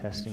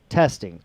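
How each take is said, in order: First: The word is said quietly. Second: The word is said at normal loudness.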